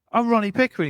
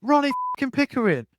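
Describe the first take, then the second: First: Higher, louder mock yell of the name; Ronnie Pickering shout. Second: A higher, louder mock yell with a put-on voice; Ronnie Pickering, furious. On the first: Road-rager announcing himself to the other driver, shouting high. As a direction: bark his own name like it should mean something. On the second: Road-rager repeating his name angrily after "Who?", roaring it higher. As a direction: spit the name out in outrage. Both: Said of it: "He's like".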